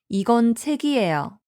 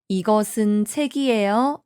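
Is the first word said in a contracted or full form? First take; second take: contracted; full. First: The first word is shortened to two syllables. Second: The first word is said in full, three syllables. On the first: This is the form used in real conversation. "실제 대화에서는 이건 책이에요 이렇게 이야기하죠" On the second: This is the form used in writing. "이것은 책이에요 라는 문장이 있으면"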